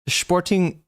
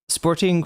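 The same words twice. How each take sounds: First: It is pronounced with a German-sounding accent. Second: It is pronounced with a plain English accent.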